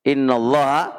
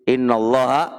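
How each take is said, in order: The two takes are said the same way.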